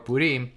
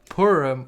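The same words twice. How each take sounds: First: It is said with a Sephardic pronunciation. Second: It is said with an Ashkenazi pronunciation.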